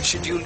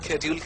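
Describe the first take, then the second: First: The word begins with an 'sh' sound. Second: The word begins with an 'sk' sound.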